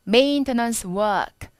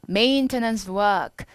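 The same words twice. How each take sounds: First: It is said in a British accent. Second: It is said in an American accent. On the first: "영국인이면" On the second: "미국인이니까 maintenance work이라고 할 겁니다"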